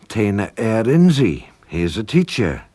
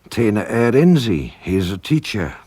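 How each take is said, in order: The two takes are said the same way.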